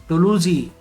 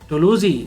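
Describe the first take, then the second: Both takes have the same delivery.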